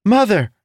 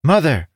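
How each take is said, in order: First: Very high, loud desperate cry; desperate shout. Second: High, loud demanding cry; demanding call. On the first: Son shouting at his dead mother, desperate. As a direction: cry out in rising panic. Calling louder. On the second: Son demanding his mother answer, loud cry. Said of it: "he demanded". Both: Acted.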